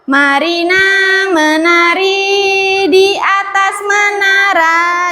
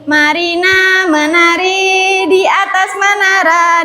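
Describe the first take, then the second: First: It is said rather slowly. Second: It is said more quickly.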